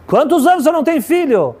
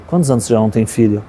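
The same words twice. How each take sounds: First: High-pitched, insistent repeated question; acted urgent demand; urgent insistence. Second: Said in the usual way. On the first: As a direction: press the question at a sharply raised pitch. Retold mother urgently repeats her question.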